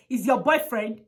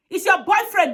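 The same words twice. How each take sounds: First: Said in the usual way. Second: Louder indignant echo of the excuse; emphatic repeat. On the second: Real, not acted. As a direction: stress "your" hard, indignant. Repeated with force against officers.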